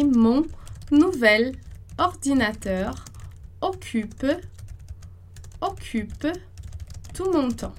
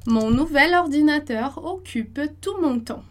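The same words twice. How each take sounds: First: Slowly, each word apart with long pauses; slow dictation. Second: Said in the usual way. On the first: Shown as a demonstration. Teacher slowly dictating the new sentence, pausing between words. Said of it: "slow dictation of the sentence". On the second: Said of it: "sentence repeated at normal pace".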